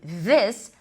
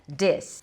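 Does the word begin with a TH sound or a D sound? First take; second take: TH sound; D sound. First: It begins with a voiced TH sound. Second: It begins with a D sound. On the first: "o som de T H vozeado"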